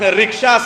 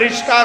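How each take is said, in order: First: The k sound comes before the sh sound. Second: The sh sound comes before the k sound. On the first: The speaker calls it right. "सही है" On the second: The speaker calls it wrong. "गलत"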